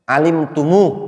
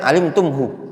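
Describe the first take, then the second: First: The word ends on a lengthened 'u' vowel. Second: The word ends with a 'hu' syllable. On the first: The speaker calls it right. "enak kan wakafnya?" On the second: The speaker calls it wrong.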